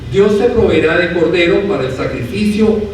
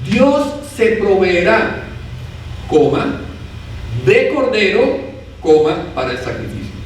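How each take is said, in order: First: It is read straight through without pauses. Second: It is broken by pauses around the middle phrase. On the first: God will provide a lamb for the sacrifice. "sin puntuación" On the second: God himself will become the sacrificial lamb. "si yo pongo una coma"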